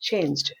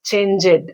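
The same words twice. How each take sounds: First: The word is said as one syllable. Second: The word is said as two syllables. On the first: "Normally they are pronounced in that way" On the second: "the poet wants these words to be pronounced in disyllabic"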